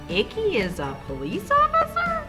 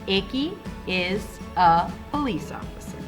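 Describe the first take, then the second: First: The sentence is read in an exaggerated voice. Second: The sentence is read in a plain, normal voice. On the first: The speaker calls it wrong. "we are not going to read this sentence like" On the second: The speaker calls it right. "We're going to read it with our normal voice"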